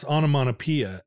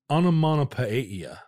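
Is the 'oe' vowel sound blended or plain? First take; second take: plain; blended. First: The 'oe' is an ordinary single vowel. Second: The 'oe' is a blended double vowel.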